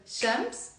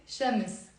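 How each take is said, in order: First: Shams in a single syllable, ending in -ms; one-syllable Shams. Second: Shams split as sha-mis, slowly; two-syllable Shams. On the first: Teacher contrasting with the easier form, one syllable. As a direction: keep m and s together in Shams. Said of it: "Instead of Shams". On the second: Teacher making it easy to pronounce, two syllables. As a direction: break Shams in two with a short i before s. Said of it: "making it two syllables". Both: Shown as a demonstration.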